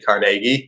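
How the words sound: The name is said the Scottish way. "being Scottish, you would say Carnegie"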